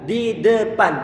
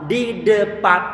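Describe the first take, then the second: No difference in how they are said.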